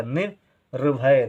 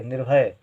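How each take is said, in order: First: निर्भय stretched slowly, syllable by syllable; slow teacher dictation; slow sounding out. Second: Said in the usual way. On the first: Shown as a demonstration. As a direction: draw out निर्भय so children hear each sound. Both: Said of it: "कम समय के लिए".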